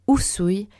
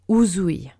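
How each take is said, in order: First: The middle consonant is a hissing S sound. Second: The middle consonant is a buzzing Z sound. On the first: The speaker calls it right. "c'est Usui" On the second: The speaker calls it wrong. "et pas Uzui"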